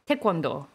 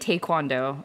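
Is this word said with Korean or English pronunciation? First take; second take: Korean; English. First: It is said with Korean pronunciation. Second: It is said with English pronunciation. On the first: The speaker calls it right. "in Korean pronunciation is technically" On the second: The speaker calls it wrong. "I say taekwondo"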